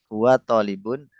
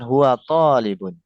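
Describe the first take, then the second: First: The first vowel of tolibun is short. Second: The first vowel of tolibun is long and pressed. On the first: The speaker calls it wrong. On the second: The speaker calls it right.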